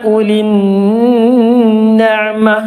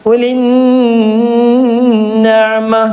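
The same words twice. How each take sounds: No difference in how they are said.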